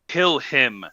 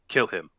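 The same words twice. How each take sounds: First: It is said loudly, almost shouted. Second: It is said quietly and calmly. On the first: "not quite yelling, but very close" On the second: "calm, cool, simple"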